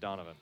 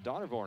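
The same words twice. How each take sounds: First: The name is said without an R sound. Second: The name is said with an R sound. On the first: The speaker calls it right. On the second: The speaker calls it wrong.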